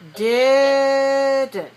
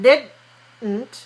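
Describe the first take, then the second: First: The first vowel is long, d starts the second. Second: The first vowel is short, closed by the d. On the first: The speaker calls it right. "but didn't. So long, short" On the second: The speaker calls it wrong. "So not didn't"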